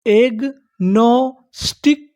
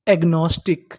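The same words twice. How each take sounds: First: agnostic stretched very slowly as egg-no-stick; syllable by syllable. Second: Said in the usual way. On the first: Shown as a demonstration. Teacher building the full word for learners, slow syllable by syllable. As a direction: draw out each part of agnostic, rising at the end. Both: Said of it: "हमारी पूरी meaning क्या बनी".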